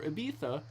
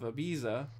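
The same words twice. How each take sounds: First: It is said with the local island pronunciation. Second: It is said with an English pronunciation.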